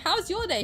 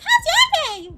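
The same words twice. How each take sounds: First: It is said in the speaker's own voice. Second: It imitates Talking Tom's cartoon-cat voice.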